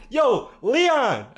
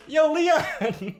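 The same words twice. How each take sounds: First: High, loud call across the store. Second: High call breaking into laughter; calling a coworker over, laughing. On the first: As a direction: call a coworker over, loudly. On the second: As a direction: shout his name while cracking up. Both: Retold or imitated. Calling coworker during robbery.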